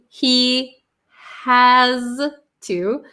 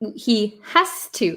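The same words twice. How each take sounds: First: The phrase is said slowly and carefully. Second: The phrase is said quickly and run together.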